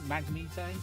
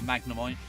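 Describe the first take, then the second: First: The name ends in a 'neet' sound. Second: The name ends in a 'nemite' sound. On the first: "I've even heard someone say" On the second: "for magnemite"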